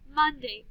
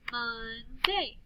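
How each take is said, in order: First: Said in the usual way. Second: MONDAY slowly in two beats, mon-day; slow "Mon-day" for clapping; clapped syllables. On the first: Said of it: "listen to these words". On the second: Shown as a demonstration. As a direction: stretch "Monday" into separate syllables. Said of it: "then we'll clap the syllables".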